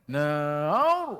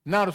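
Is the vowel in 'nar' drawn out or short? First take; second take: drawn out; short. First: The vowel is drawn out long. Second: The vowel is kept short. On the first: The speaker calls it wrong. "jangan tarik" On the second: The speaker calls it right. "Nar saja"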